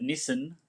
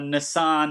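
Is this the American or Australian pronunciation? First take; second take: Australian; American. First: It is said with an Australian pronunciation. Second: It is said with an American pronunciation. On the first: "instead of Nissan" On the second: "they say uh, Nissan"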